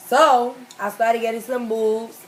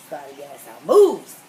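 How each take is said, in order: First: Said in the usual way. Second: Low, slow and loud, in a put-on voice; deep voice. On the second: Shown as a demonstration. Said to friends about learning to fight, low and slow put-on voice. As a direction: drop way down and stretch it out.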